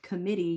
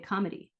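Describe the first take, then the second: First: It has its usual stress and sounds like committee. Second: The stress is moved and it sounds like comedy. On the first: The speaker calls it right. "instead of committee" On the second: The speaker calls it wrong. "what happens if you stress a different syllable, I just said comedy"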